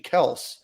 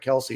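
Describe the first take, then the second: First: The name ends with an s sound. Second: The name ends with an ee sound. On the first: The speaker calls it right. "Their their last name is actually Kels" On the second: The speaker calls it wrong. "and not Kelsey"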